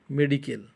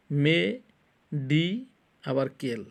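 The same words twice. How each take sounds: First: Said in the usual way. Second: "মে", "ডি", "কেল" as three separate drawn-out syllables. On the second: Shown as a demonstration. Teacher counts three syllables for students, "মে", "ডি", "কেল" said separately. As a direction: break it apart: "মে" ... "ডি" ... "কেল". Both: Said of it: "তিনটা syllable".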